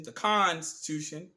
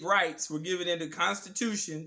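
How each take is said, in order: First: "Constitution" slowed, first syllable con leaned on hard; stress on CON. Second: Said in the usual way. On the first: Shown as a demonstration. To viewers, pointing at con in "Constitution", slow stress. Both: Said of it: "We're gonna emphasize the word con".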